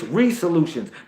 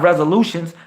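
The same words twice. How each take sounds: First: The first syllable sounds like 'ray'. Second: The first syllable sounds like 'rez'. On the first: The speaker calls it right. "it's resolutions because the sun is the ray" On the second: The speaker calls it wrong. "It's not resolutions"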